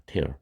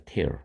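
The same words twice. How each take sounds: First: Tear를 눈물 뜻의 '티어'로; 'tear'를 '티어'처럼 말하기; tear as in tears. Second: Tear를 '테어'로, 눈물의 '티어'와 다르게; tear는 '테어'처럼 발음하기; tear pronounced tear. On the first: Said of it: "tear 하면은 눈물입니다". (눈물 뜻 'tear'는 '티어'로 발음) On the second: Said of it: "아마 발음이 이렇게 될 거예요". ('tear'를 '테어'로 또박또박 발음) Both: Shown as a demonstration.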